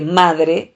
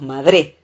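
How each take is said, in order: First: Said in the usual way. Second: Madre stressed on the final E, as madré; wrong stress. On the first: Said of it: "se acentúa en la A". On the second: Shown as a demonstration. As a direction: shift the stress of madre to its last syllable. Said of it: "y no decimos madre".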